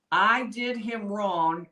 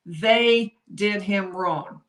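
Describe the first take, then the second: First: Slow, with the weight on "I" at the start; stress on I. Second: Slow, with "They" hit harder than the rest; stress on THEY. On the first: Host contrasting the two readings for viewers, stress on I. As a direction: lean on "I" in "I did him wrong", slowly. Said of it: "whether or not he says". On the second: Host contrasting the two readings for viewers, stress on THEY. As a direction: lean on "They" in "They did him wrong", slowly. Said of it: "as opposed to". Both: Shown as a demonstration.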